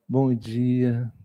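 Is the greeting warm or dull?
warm. It is said warmly and brightly.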